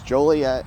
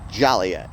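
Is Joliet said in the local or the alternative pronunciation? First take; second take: local; alternative. First: The name is said in the local pronunciation. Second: The name is said in an alternative pronunciation. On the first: The speaker calls it right. "So it's Joliet" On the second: The speaker calls it wrong. "you mispronounce the name and call it Joliet"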